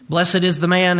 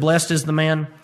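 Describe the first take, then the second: First: Blessed is said with two syllables. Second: Blessed is said with one syllable. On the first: It keeps an older, traditional pronunciation. "I'm going to pronounce it the old 1611 way of blessed" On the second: It is the usual modern pronunciation. "instead of"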